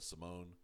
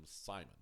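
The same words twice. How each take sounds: First: Simone with a long o and stress on the last syllable, see-MONE. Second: Simon the English way, SIGH-mon. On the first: Addressing viewers on how the show says the name, Simone as see-MONE. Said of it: "that's how I'm gonna pronounce his name". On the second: Rejecting the English form the dubs never use, Simon as SIGH-mon. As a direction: say Simon with a long i and stress on the first syllable. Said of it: "they have never ... called him Simon". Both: Shown as a demonstration.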